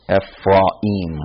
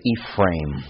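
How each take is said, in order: First: The final vowels are split into two syllables. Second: The final vowels merge into one syllable. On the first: "more in a Hebraic way, like the syllable cut between the A and the I" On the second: "this two vowels walk and first does the talking thing"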